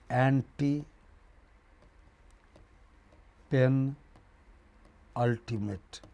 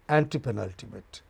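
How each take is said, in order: First: The word is broken into separate parts. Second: The word is said smoothly as one.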